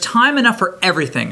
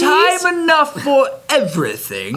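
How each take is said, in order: First: It is said in the speaker's ordinary accent. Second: It is said in a put-on British accent.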